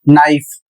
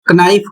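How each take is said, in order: First: The word starts with an n sound. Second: The word starts with a k sound. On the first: The speaker calls it right. "इसका सही उच्चारण होगा नाइफ" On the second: The speaker calls it wrong. "क बोलते हैं, तो आप बिल्कुल गलत पढ़ रहे हैं"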